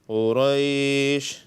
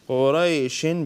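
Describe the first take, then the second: First: The word ends cut short on 'sh'. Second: The word ends with an added 'in' sound. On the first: The reading stops after this word. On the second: The reading continues on to the next word.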